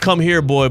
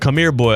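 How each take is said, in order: First: The words are said at normal pace, separately. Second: The words are said fast, run together.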